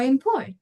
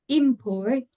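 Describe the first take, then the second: First: ImPORT, last syllable stressed; "import" as a verb, weight at the end; verb stress, second syllable. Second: IMport, first syllable stressed; "Import" as a noun, weight up front. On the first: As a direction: hit the PORT of "import". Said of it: "talking about the verb". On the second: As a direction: hit the IM of "Import". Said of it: "if you're talking about the noun". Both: Shown as a demonstration.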